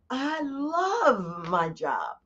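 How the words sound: It is said with lively enthusiasm.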